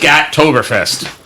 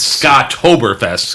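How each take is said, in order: First: The first syllable sounds like 'scat'. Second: The first syllable sounds like 'Scott'. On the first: The speaker calls it wrong. "You called it Scat-toberfest" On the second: The speaker calls it right. "it's Scott-toberfest"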